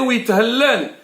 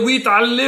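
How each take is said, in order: First: A throat consonant is pronounced before the vowel. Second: The throat consonant is dropped, like a plain vowel. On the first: It means the name is exalted. The speaker calls it right. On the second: It means he will be hanged. The speaker calls it wrong.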